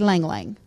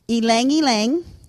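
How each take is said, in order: First: Each word begins directly with an L sound. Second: Each word begins with a vowel before the L. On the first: The speaker calls it wrong. "I'm a Yankee. I say Lang Lang" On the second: The speaker calls it right. "But the proper pronunciation is Elang"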